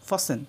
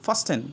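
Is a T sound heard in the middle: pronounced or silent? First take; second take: silent; pronounced. First: The T sound is silent in the middle. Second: The T sound is pronounced in the middle. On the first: The speaker calls it right. "এখানে উচ্চারণ করতে হবে ফাসেন" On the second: The speaker calls it wrong. "অনেকে উচ্চারণ করবে ফাস্টেন, কিন্তু এটা ভুল"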